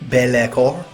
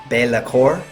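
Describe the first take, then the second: First: It is said with a French-sounding accent. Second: It is said with a French-sounding accent.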